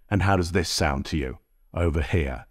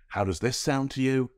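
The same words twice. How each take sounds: First: Said in the usual way. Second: Softer, boxier take through the cheap Logitech mic; webcam mic sound. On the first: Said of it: "Thousand dollars of sound over here". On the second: Shown as a demonstration. Asking viewers to compare, softer through the cheap webcam mic. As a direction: talk into the budget webcam mic. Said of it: "Totally free Logitech sound through Enhance over here".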